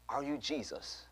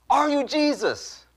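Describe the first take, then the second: First: Soft, hushed retold question; curious question. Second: High, slow, drawn-out imitated demand; insistent question. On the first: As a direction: ask it quietly, in curious wonder. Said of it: "with the most curious look in her eye". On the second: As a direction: press the question, voice pitched way up. Woman insisting on her question.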